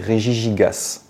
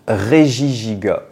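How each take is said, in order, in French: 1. Le nom se termine avec un son S final. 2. Le nom se termine sans son S final. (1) "je le prononçais Regigigas... Fallait pas dire le S" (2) "on doit dire Regigiga"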